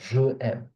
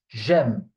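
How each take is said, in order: First: Je and aime are said as separate syllables. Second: The j joins aime as one word. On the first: The speaker calls it wrong. "It's not je aime. Don't keep this pronunciation" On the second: The speaker calls it right. "It's j'aime, like if it was one word"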